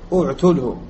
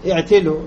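First: The opening vowel is u, damma. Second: The opening vowel is i, kasra. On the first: This follows the dialect with damma in the verb. "وإذا قلت عتل ويعتلوا تقول اعتله" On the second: This follows the dialect with kasra in the verb. "إذا رأيت لغة الكسر عتل يعتل كيف تقول؟"

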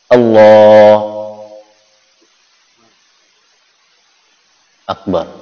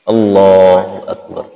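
First: There is a long pause between the two words. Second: The two words run on with no pause. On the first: The speaker calls it wrong. "Jedanya lama ya. ... Lama jedanya" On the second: The speaker calls it right. "tidak boleh dikasih jeda langsung ya. ... jelas"

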